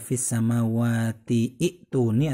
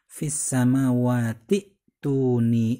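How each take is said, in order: First: An 'i' vowel is sounded before 'tuni'. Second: No vowel is sounded before 'tuni'. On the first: The speaker calls it wrong. "Bukan dibaca" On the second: The speaker calls it right. "sehingga cara bacanya langsung"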